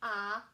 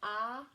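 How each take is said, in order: First: It is said as it is spelled, like "ah". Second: It is said as it is spelled, like "ah".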